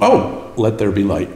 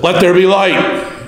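First: It is said casually, in a conversational tone. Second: It is said loudly, as a dramatic proclamation.

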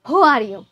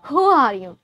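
No difference in how they are said.

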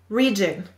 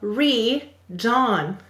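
First: The last syllable is said with a weak, reduced vowel, like 'jun'. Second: The last syllable is said with a full vowel, like 'john'. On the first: This is how the word is normally spoken. "The next word is region" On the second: This is a spelling pronunciation that sounds out every letter. "We will say to spell re-john"

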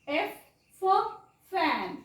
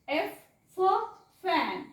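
Both takes have the same delivery.

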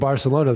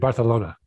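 First: The middle consonant is a plain 's' sound. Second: The middle consonant is a lisped 'th' sound. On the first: "instead of saying Barcelona" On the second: "I have been lisping"

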